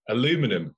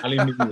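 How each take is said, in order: First: It is said the American way, four syllables. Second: It is said the British way, five syllables.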